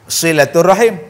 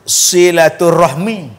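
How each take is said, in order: First: The word ends with the sounds h-i-m. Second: The word ends with the sounds h-m-i. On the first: This is the form Arabs use. "Orang Arab sebut silaturrahim" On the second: This is the form Indonesians use. "Orang-orang Indonesia dia sebut silaturrahmi"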